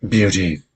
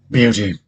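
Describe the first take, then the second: First: Said in the usual way. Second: The name called out louder, a touch gruff; a hint of a gruff beast, louder. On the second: The beast abruptly addressing Beauty, mildly gruff and louder. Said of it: "in his gruff voice".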